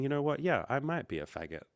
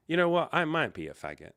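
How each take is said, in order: First: A touch of mock calm, gently imitated; peaceful calm voice. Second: Blurted reply. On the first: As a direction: say it lightly, like nothing bothers you. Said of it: "in a very peaceful, calm voice". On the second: Retold or imitated. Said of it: "the words in my head popped".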